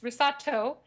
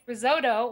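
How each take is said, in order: First: The middle t sounds like a t. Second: The middle t sounds like a d. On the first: The speaker calls it right. "when it's" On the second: The speaker calls it wrong. "we pronounce our T's like the letter D"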